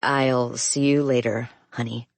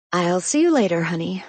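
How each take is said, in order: First: Flat, emotionless reply. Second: Affectionate. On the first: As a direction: say it dryly, no warmth. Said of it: "I respond flatly". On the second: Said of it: "repeat flatly". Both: A narrator's reading.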